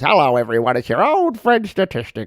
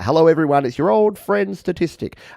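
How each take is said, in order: First: It is said in a put-on character voice. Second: It is said in a normal, natural voice.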